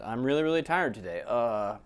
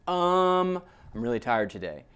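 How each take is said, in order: First: A filled pause comes after the sentence. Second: A filled pause comes before the sentence.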